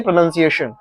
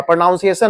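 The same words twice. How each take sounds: First: "प्रोनाउंसिएशन" with second syllable as short "nun"; correct pronunciation. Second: "प्रोनाउंसिएशन" with second syllable as "noun"; wrong pronunciation. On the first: Teacher correcting the class, "प्रोनाउंसिएशन" with a short nun syllable. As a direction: say "nun", not "noun", inside "प्रोनाउंसिएशन". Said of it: "प्रोनाउंसिएशन नहीं". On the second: Teacher showing the class the mistake, "प्रोनाउंसिएशन" with an ow sound. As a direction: say "nown" inside "प्रोनाउंसिएशन". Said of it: "हाँ, प्रोनाउंसिएशन नहीं". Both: Shown as a demonstration.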